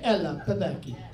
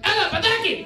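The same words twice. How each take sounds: First: It is said in a soft, sweet tone. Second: It is said in a loud, aggressive tone. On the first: The speaker calls it wrong. "there's not a dulcet tone with a Greek man" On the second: The speaker calls it right. "They're a little hostile in their vocal tones"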